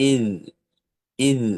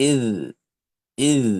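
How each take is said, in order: Both takes have the same delivery.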